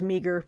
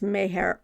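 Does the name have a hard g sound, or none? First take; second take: hard g; none. First: The name has a hard g, like 'meager'. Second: The name has no g, like 'mare'. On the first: The speaker calls it wrong. "I thought it was Meager" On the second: The speaker calls it right. "It's Mayer"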